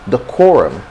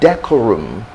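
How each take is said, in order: First: The stress is on the second syllable. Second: The stress is not on the second syllable. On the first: The speaker calls it right. "the stress is on the core" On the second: The speaker calls it wrong. "it's wrongly stressed"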